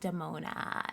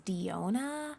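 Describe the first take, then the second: First: The name is said as Damona, with the m. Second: The name is said as Diona, without the m. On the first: The speaker calls it right. "It's pronounced Damona" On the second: The speaker calls it wrong. "you guys will pronounce Damona's name as Diona, and that's like incorrect"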